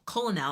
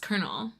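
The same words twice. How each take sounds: First: The word is sounded out as it is spelled. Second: The word is said with an R sound. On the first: The speaker calls it wrong. "I don't know what that word is" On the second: The speaker calls it right. "it was Colonel. I was saying it wrong for so long"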